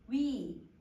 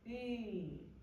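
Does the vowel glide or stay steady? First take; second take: glide; steady. First: The vowel glides from one position to another. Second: The vowel stays steady without changing. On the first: "선생님 지금 다 뭘로 발음하고 있냐면 이중모음으로 발음을 해" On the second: "얘를 선생님 단모음으로 발음을 해볼게요"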